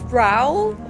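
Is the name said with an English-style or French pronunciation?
English-style. The name is said with an English-style pronunciation. The speaker calls it wrong. "they say his name Raoul, and it pisses me off. The fuck is that"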